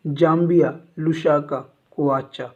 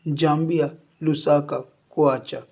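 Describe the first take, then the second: No difference in how they are said.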